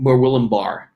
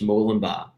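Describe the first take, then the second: First: It is said in an American accent. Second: It is said in an Australian accent.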